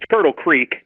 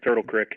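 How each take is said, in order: First: Creek is said with a long 'ee' vowel. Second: Creek is said as 'crick', Pittsburgh style.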